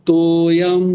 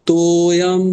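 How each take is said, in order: Both takes have the same delivery.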